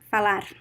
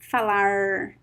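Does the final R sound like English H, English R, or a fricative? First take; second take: fricative; English R. First: The final R is a fricative sound. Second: The final R sounds like an American R. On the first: This is how it is said in São Paulo and the south. "the fricative R, it is more common in São Paulo" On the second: This is how it is said in small inland cities. "it sounds like the American R"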